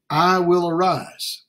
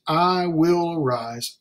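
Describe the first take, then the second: First: I will arise, each word weighed slowly; preacher spells out "I will arise" word by word; slow, stressed. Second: "I will arise" slow and firm with weight on "I"; slow, stressed. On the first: Preacher stressing the prodigal's resolve, slow and deliberate. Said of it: "this resolution this man makes". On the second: Preacher repeating the resolve, slow and firm. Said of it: "he says". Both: Shown as a demonstration.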